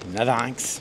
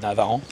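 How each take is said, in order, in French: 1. Le nom se termine par un son 'inx'. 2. Le nom se termine par un son nasal 'an'. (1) "on le prononce comme ça ici" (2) "c'était pas Navaran"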